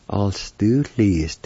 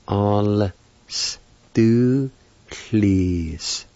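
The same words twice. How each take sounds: First: Said in the usual way. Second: "All stu please" very slow, each sound held and separated; syllable by syllable. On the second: Shown as a demonstration. Teacher pronouncing the word perfume, "All stu please" syllable by syllable. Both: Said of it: "You pronounce the L sound with the A like this".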